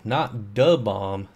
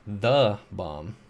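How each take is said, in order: First: "the bomb" said slowly as the ordinary phrase; "the bomb" read in the ordinary way; wrong stress, not the bomb. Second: "the bomb" with "the" stressed and rising; corrected pronunciation. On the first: Correcting the chat, "the bomb" said plainly. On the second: Correcting chat, stressing "the" in "the bomb". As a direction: lean on "the" in "the bomb". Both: Shown as a demonstration.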